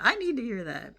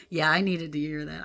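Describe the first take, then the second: First: Need pressed with real conviction; stress on need. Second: Said in the usual way. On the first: Real, not acted. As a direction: lean hard on need, higher pitch.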